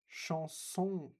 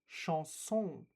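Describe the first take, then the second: The two takes are said the same way.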